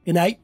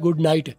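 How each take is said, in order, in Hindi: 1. शब्द आपस में सिमट जाते हैं और कुछ ध्वनियाँ छूट जाती हैं। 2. हर शब्द पूरा और अलग-अलग बोला गया है।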